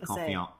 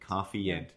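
First: The name has an n sound before the f. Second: The name has no n sound before the f. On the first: "But there's an N, right? ... I'm sure you say it correctly with Confiant" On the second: "I'm pretty sure I always said it as a kid is Coffeeant"

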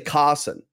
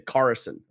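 First: The R in the middle is not pronounced. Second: The R in the middle is clearly pronounced. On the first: This is the speaker's own accent. "Like I would say Carson" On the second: This is how an American would say it. "They would hit the R in the middle of the word"

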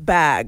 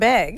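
First: The vowel has a standard general accent. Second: The vowel has a strong regional local accent. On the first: The speaker calls it right. "However regular people say it" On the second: The speaker calls it wrong. "the way I spoke"

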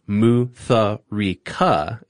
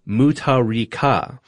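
First: The h is sounded aloud. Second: The h is silent. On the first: The speaker calls it wrong. "not pronounced Mutharika, as y'all were pronouncing it" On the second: The speaker calls it right. "is actually pronounced Mutharika"

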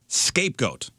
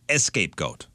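First: The word begins directly with an s sound. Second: The word begins with an added e vowel. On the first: The speaker calls it right. "a scapegoat is someone who takes the blame" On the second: The speaker calls it wrong. "Some people say escapegoat"

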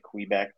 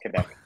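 First: Quebec is said with an American pronunciation. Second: Quebec is said with a local Quebec pronunciation. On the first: The speaker calls it wrong. "I've heard Americans say Quebec before" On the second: The speaker calls it right. "No, it's Quebec"

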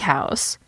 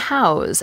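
First: The word ends with a hissing S sound. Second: The word ends with a buzzing Z sound. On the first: It names a building. "the noun house is pronounced with an S" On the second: It means to give someone shelter. "the verb house is pronounced with a Z"

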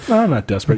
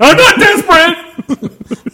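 First: It is said calmly, as a plain denial. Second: It is said loudly, as a forceful outburst.

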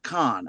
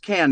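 First: The vowel sounds like the one in 'con'. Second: The vowel sounds like the one in 'can'. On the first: The speaker calls it wrong. "not Con" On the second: The speaker calls it right. "it is pronounced Cannes"

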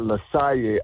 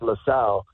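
First: The name is said with Spanish pronunciation. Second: The name is said with English pronunciation. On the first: "in Spanish he pronounced it LaSalle" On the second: "in English he's pronounced LaSalle"

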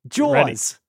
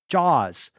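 First: It is said in a Long Island accent. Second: It is said in his ordinary accent.

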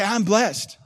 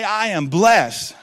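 First: It is said a little louder. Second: It is shouted at full volume.

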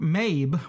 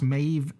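First: The name ends with a b sound. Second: The name ends with a v sound. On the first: The speaker calls it wrong. "it's spelled Maeve with a B" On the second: The speaker calls it right. "it's apparently pronounced Maeve with a V"

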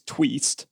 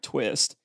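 First: The vowel is a long 'ee' sound. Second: The vowel is a short 'i' sound. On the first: The speaker calls it right. "it's tweest, not twist" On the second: The speaker calls it wrong. "not twist"

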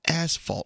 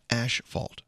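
First: The first syllable is said as 'as'. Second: The first syllable is said as 'ash'. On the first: The speaker calls it right. "it's asphalt" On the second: The speaker calls it wrong. "not ashfault"

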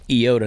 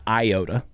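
First: It is said the Greek way. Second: It is said the common fraternity way. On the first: The speaker calls it right. "It's pronounced iota" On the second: The speaker calls it wrong. "not iota"

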